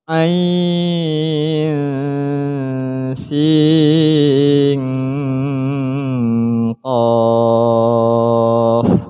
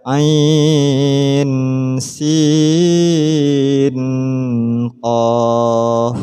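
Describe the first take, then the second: First: The n sounds are nasalized into the next letters. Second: The n sounds are pronounced clearly and separately. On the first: The speaker calls it right. "memasukkan suara nun mati pada qaf" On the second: The speaker calls it wrong. "tidak boleh dibaca ain sin qaf, tidak boleh"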